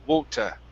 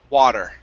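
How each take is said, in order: First: The first vowel is a rounded 'wo' sound. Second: The first vowel is an open, strong 'ah' sound. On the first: "If you want a British accent, you could say water, wo, wo, wota" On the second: "In the United States, we say wa, water"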